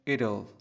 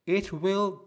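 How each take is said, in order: First: It is said as one short contracted word. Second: It is said as two full separate words.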